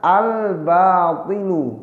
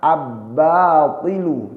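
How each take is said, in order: First: The L sound is pronounced clearly. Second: The L merges into a doubled B sound. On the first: The speaker calls it right. "lamnya dibaca jelas" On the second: The speaker calls it wrong. "bukan dibaca"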